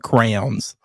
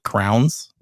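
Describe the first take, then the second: First: It is said fully, sounding like 'crayons'. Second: It is said fast, sounding like 'crowns'. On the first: The speaker calls it right. "but crayons" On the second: The speaker calls it wrong. "say it so so fast and so confidently, like, it would come out and it would sound like crowns"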